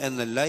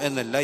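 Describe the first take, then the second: The two takes are said the same way.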